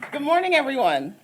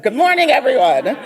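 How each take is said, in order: First: It is said with ordinary, lower energy. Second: It is said with more energy and loudness.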